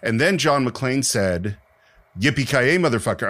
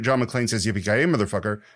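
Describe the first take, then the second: First: There is a pause before "Yippee". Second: It rolls straight into "Yippee" without a pause.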